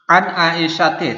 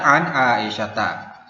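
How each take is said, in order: First: The name ends with an 'i' vowel. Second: The name ends with an 'a' vowel. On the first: The speaker calls it wrong. "tidak bisa kita baca, yaitu salah bacaannya" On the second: The speaker calls it right. "Yang benar adalah"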